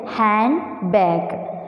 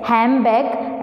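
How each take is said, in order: First: The word is said in a careful, unassimilated form. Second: The word is said in a rapid, assimilated form. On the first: "rather than handbag" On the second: "in rapid speech, it's often pronounced as handbag"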